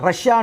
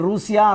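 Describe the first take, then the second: First: It is said with a short first vowel. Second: It is said with a long 'oo' first vowel. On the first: This is how people actually say it. The speaker calls it right. "రష్యా అంటున్నామండి" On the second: This follows the written spelling. The speaker calls it wrong. "నేను రూసియా అనట్లే"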